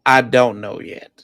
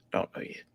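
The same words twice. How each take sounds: First: Said in the usual way. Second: Whispered under breath; whispering. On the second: Real, not acted. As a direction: repeat it in a whisper.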